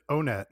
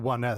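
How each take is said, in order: First: The name begins with a plain 'oh' sound. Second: The name begins with the word 'one'. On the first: "I always pronounced it O-Net" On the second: "So you pronounce it One Net"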